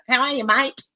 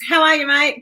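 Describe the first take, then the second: First: Hammed-up Aussie accent, rising at the end; mock-Australian greeting, pitched up; exaggerated Australian. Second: Higher-pitched, louder Australian greeting; casual Australian hello, pitched up. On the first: Shown as a demonstration. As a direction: play up your own Australian twang. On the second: Real, not acted. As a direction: greet a mate in your natural Aussie accent. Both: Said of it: "that was very Australian".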